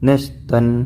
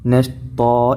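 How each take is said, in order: First: The word ends with an n sound. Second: The word ends on a long a vowel. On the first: The speaker calls it wrong. "ഒരിക്കലും നഷ്തൻ എന്ന് പറഞ്ഞ് നിർത്തരുത്" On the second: The speaker calls it right. "നഷ്താ എന്ന് പറഞ്ഞാണ് നിർത്തേണ്ടത്"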